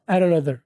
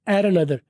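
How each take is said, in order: No difference in how they are said.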